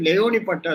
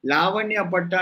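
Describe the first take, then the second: First: లేవని పట్టా said as "la-o-ni", ending in plain "-ni"; correct Laoni patta. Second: లావణ్య పట్టా with a "-nya" ending; mispronounced Lavanya patta. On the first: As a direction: say లేవని as spelled L-A-O-N-I. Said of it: "L A ఓ N I". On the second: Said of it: "It's not లావణ్య పట్టా". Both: Shown as a demonstration.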